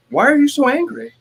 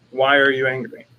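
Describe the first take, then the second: First: Very high, loud mock accusation; accusing wife. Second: Said in the usual way. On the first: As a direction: imitate a wife jumping to conclusions. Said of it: "Jessica will assume that I'm angry". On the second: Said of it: "And it's a good question".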